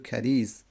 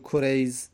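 First: The first vowel is a, as Kariz. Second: The first vowel is u, as Kurayz. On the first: It is the plain, non-diminutive form of the name. The speaker calls it right. "بگو کریز در خزاعه" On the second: It is the diminutive form of the name. The speaker calls it wrong. "مصغرش نکن، نگو کریز"

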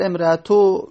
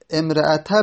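First: The case vowel after the t is u. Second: The case vowel after the t is a. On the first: The word is a substitute for the subject. "اگر امرأتو بگیم بدل کردیم از احدون" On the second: The word is an excepted object. "اگر امرأتا بگیم"

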